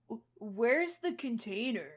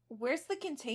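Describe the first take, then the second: First: It is said in a put-on low voice. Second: It is said in a normal voice.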